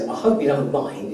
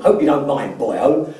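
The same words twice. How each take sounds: First: Said in the usual way. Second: Imitated Welsh accent. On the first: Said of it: "Welsh accent". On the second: Former client greeting the coach before a meeting, imitated Welsh accent. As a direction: lightly put on a Welsh lilt. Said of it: "in this deep, um, Welsh accent".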